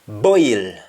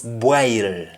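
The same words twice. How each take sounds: First: It is said in a standard English accent. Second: It is said in a Jamaican accent.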